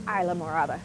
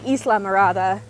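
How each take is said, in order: First: The second word begins with a 'moh' sound. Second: The second word begins with a 'mee' sound. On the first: The speaker calls it right. "I got very much corrected" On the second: The speaker calls it wrong. "I want to say Isla Mirada"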